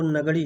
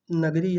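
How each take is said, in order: First: नगड़ी with a retroflex flapped ड़; correct pronunciation. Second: नगरी with a tapped र; common mispronunciation. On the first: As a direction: curl the tongue back for the ड़ in नगड़ी. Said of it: "इसका जो शुद्ध उच्चारण है". (नगड़ी, मूर्धन्य ड़ के साथ शुद्ध उच्चारण) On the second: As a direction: say नगरी with a plain r, not a retroflex ड़. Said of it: "इसका जो शुद्ध उच्चारण है वो नगड़ी है". (नगरी, सादे र के साथ उच्चारण) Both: Shown as a demonstration.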